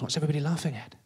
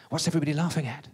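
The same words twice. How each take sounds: First: Said in the usual way. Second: Stalling, half-laughed question; laughing echo. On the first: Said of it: "I hear this voice in my ear going". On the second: Acted. Bluffer echoes the press officer's question, through forced laughter. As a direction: repeat it through put-on laughter.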